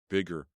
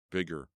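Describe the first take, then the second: No difference in how they are said.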